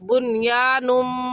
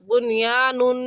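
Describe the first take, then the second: First: The word ends with a nasal m sound. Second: The word ends with a plain n sound. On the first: The speaker calls it right. "सही है बुनियानुम" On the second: The speaker calls it wrong. "बुनियानुन कहना गलत है"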